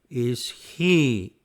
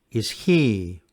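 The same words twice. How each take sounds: First: The word is said slowly, vowels slightly apart. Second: The word is said quickly, vowels blending smoothly. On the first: "Speaking slowly again" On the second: "And now speaking at normal speed"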